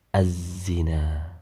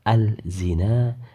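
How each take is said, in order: First: The L merges fully into a doubled Z. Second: The L is pronounced separately before the Z. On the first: The speaker calls it right. "dibaca melebur dalam huruf za" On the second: The speaker calls it wrong. "Tidak boleh dibaca al-zina"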